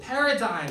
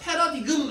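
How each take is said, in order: First: No g sound is pronounced near the end. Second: A hard g sound is pronounced near the end. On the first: The speaker calls it right. "paradigm 이렇게 해버리죠" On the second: The speaker calls it wrong. "패러디금 안 그러고"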